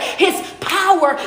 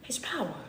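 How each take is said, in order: First: "His power" drawn out, HIS leaned on hard; slow stressed answer. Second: "His power" dropped to a much softer murmur; soft echo. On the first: Coach answering his own question, landing on "His power" slowly. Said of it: "his what?". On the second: Coach echoing the point, "His power" said much softer. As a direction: let "His power" fall away softly after the pause. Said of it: "every single story is showing his power". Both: Shown as a demonstration.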